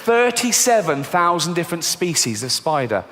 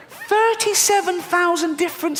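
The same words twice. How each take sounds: First: Said in the usual way. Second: Thirty-seven thousand said high and squeaky, aghast; squeaky repeat. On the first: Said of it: "repeats in different voice". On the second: Shown as a demonstration. Comedian repeating the spider count, high squeal. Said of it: "repeated take".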